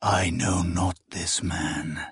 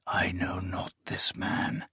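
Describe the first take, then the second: First: Lower, softer and slow; low, slow denial. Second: Unvoiced, breathy whisper. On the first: Acted. Akamian echoing the denial in despair, low slow and quiet. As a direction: let it sink, heavy and quiet. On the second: The hanging shadow on the glass denying him, whispering.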